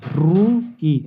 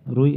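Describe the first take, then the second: First: The first vowel is drawn out and separated. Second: The first vowel is short and joined. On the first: The speaker calls it wrong. "ऐसे तो नहीं बोला जा रहा है ना" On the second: The speaker calls it right. "रुई ऐसे बोला जाएगा"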